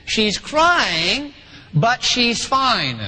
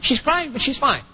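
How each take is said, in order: First: Drawn-out, deliberate restatement; slow emphatic repeat. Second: Brisk dismissal. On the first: Shown as a demonstration. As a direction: stretch each phrase slowly so listeners catch it. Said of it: "Now listen to that again". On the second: Acted. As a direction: toss it off quickly, as a dad not paying much attention. Dad brushes off crying, then repeats it.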